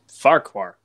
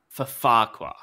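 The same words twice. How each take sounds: First: Farquhar said as a single F-word; Farquhar pronunciation. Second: Farquhar said with a clear separate for; Farquhar pronunciation. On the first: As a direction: say Farquhar the one-F way. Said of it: "how do you pronounce". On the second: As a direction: say for Farquhar, two distinct words. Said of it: "about the pronunciation". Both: Shown as a demonstration.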